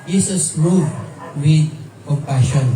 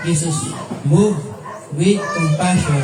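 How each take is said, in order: First: Said in the usual way. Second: "Jesus moved" said slowly with each word weighted; slow, weighted reading. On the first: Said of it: "ang sabi sa Mark is". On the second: Shown as a demonstration. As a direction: lean on "moved" and let "with compassion" land. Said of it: "Kasi wala dito sa Matthew".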